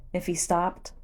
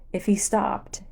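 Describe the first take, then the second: No difference in how they are said.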